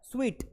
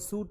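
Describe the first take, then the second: First: It is said like 'sweet', with a w sound. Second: It is said like 'suit', with no w sound. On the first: The speaker calls it right. "वो स्वीट है" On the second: The speaker calls it wrong. "वो सूट नहीं है"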